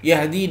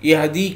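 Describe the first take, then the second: No difference in how they are said.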